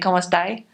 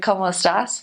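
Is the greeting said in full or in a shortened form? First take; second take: shortened; full. First: The greeting is said with a clipped Chilean ending. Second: The greeting is said in its full standard form. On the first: This is how people in Chile say it. "they usually cut their words" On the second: This is the standard way most Spanish speakers say it. "instead of"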